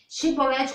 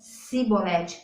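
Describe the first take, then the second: First: The word begins with an sh sound. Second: The word begins with an s sound. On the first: The speaker calls it right. "pronunciar o hebraico com C H" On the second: The speaker calls it wrong. "Sibolete com um S"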